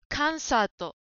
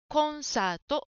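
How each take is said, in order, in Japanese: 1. 最初の音節は'a'の母音です。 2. 最初の音節ははっきりした'o'の母音です。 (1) "カンサートに聞こえました。" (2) "コをはっきり発音しましょう。"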